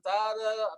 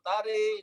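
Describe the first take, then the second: First: The r and following vowel sound light. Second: The vowel after r leans toward i.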